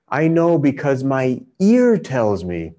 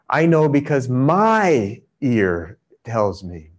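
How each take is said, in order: First: The word my is not stressed. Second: The stress falls on the word my.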